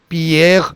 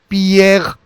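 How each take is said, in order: The two takes are said the same way.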